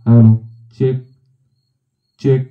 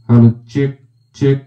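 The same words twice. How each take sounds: First: The voice sounds even, with flat equalization. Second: The voice sounds brighter, with boosted high frequencies. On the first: "equalisation flat position করে রেখেছি" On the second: "high frequency দিয়ে আপনাদেরকে দেখাই"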